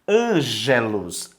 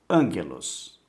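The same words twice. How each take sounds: First: The g is a soft g sound. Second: The g is a hard g sound. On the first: The speaker calls it wrong. "você não vai ler ângelos" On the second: The speaker calls it right. "ele tem sempre o som duro"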